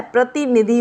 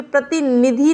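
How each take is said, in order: First: प्रतिनिधि with short i sounds, falling tune; correct short vowels. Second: प्रतिनिधि with lengthened i sounds, raised tune; wrong vowel length. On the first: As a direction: keep each i short in प्रतिनिधि. (प्रतिनिधि में "इ" छोटी बोलें) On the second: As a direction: draw out the i in प्रतिनिधि. (प्रतिनिधि में "इ" लंबी बोलें) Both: Shown as a demonstration. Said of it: "छोटी की मात्रा होती है".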